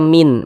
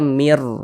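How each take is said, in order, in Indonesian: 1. Kata itu berakhir dengan bunyi n. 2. Kata itu berakhir dengan bunyi r. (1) "Jangan dibaca min" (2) "Kita baca mir"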